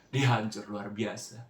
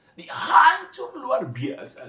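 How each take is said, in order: First: Said in the usual way. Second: Crying out "hancur" slowly and high-pitched; voice breaking. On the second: Real, not acted. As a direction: sob the word "hancur" out. ("hancur" diucapkan menangis, pelan dan tinggi) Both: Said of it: "Nggak kuat, saudara".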